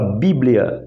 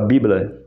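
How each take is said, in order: First: The word is said with its standard pronunciation. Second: The word is said with an imitated personal pronunciation. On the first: This is how most people say it. "Ela não fala Bíblia" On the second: This is one particular person's habitual way of saying it. "ela fala Bíblia"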